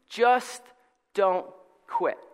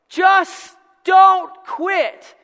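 First: It is said calmly and nicely. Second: It is yelled loudly.

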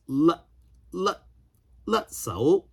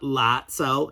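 First: The first vowel sounds like the vowel in 'cut'. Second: The first vowel sounds like the vowel in 'cat'. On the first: The speaker calls it right. "it should be pronounced Lut Cao" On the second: The speaker calls it wrong. "not Lat Cao"

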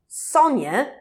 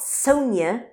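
First: The name is said in a British way. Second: The name is said in an American way. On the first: The speaker calls it right. "was Sonya" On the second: The speaker calls it wrong. "not Sonya. I don't know why Americans can't say Sonya"

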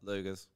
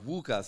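First: The name is said with a broad Australian accent. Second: The name is said with a careful foreign pronunciation. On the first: This is how Australians mangle the name. The speaker calls it wrong. "and we're like" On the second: This is how other languages carefully say the name. The speaker calls it right. "everyone puts so much effort, every other language, into pronunciation"

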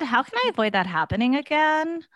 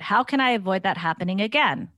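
First: It is read in a put-on character voice. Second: It is read in the speaker's ordinary voice.

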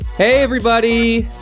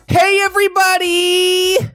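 First: It is said in his normal, sick voice. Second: It is said in a put-on effeminate voice.

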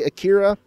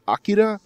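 First: The name is said the familiar anglicized way. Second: The name is said the original Japanese way. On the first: The speaker calls it wrong. "I'm going to say Akira" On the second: The speaker calls it right. "I know it's pronounced Akira"

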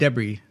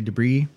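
First: It is said with the British pronunciation. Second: It is said with a non-British pronunciation. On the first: "I think that's the British pronunciation for the word" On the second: "I would say Debris"

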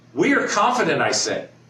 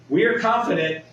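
First: It is read with strong, confident emphasis. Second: It is read plainly, without special emphasis.

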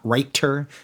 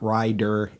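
First: The middle consonant is a clear T. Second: The middle consonant is a clear D. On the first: "not a T sound" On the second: "not a D sound"

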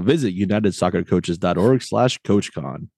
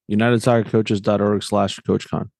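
First: It is said in a put-on announcer voice. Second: It is said in his normal voice.

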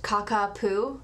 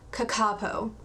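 First: The last syllable sounds like 'poo'. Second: The last syllable sounds like 'poe'. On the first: The speaker calls it wrong. "I was really hoping it'd be pronounced Kakapoo" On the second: The speaker calls it right. "I Googled the pronunciation and I got Kakapo"

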